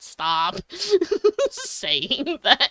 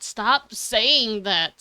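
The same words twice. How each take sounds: First: Laughing through it. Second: Slow insistent demand. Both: Retold or imitated. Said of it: "Bitch, I'm, like".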